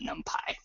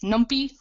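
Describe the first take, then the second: First: The last syllable sounds like Python's 'py'. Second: The last syllable does not sound like Python's 'py'. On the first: It matches how the language name Python is said. "for consistency with the name of the language Python, I pronounce it NumPy" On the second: Some other people say it this way. "I've also heard this pronounced as NumPy"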